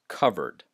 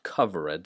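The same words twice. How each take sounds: First: The e in the ending is silent. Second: The e in the ending is pronounced. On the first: The speaker calls it right. "this is pronounced covered" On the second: The speaker calls it wrong. "not covered"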